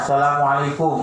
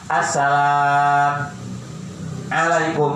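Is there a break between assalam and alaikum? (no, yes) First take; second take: no; yes. First: The words run together without a break. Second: There is a break between the two words. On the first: The speaker calls it right. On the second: The speaker calls it wrong.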